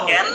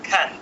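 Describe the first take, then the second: First: The first k sound has no puff of air. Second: The first k sound has a puff of air. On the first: The speaker calls it wrong. "উচ্চারণ ক্যান না হয়ে" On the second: The speaker calls it right. "হবে কি খ্যান"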